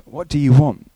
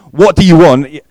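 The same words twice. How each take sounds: First: Gentler, less forceful question; gentlest version. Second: Loud, high, abrupt challenge; abrupt demand. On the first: Preacher tries the gentlest reading of Jesus's question. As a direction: ask it gently, still a little abrupt. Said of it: "the gentlest". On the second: Preacher demonstrates Jesus's question, loud and abrupt. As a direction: throw the question out loudly and abruptly. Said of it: "at least a little bit abrupt". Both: Shown as a demonstration.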